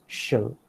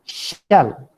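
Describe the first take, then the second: First: "shall" short and softer, reduced to shuhl; unstressed, reduced "shall"; weak form. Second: "shall" stressed and louder, vowel close to shell; emphatic, full "shall"; strong form. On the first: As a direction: say "shall" lightly with a neutral vowel. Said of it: "the weak form is". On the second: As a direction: hit "shall" with a full front vowel, as shal. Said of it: "The strong form is". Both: Shown as a demonstration.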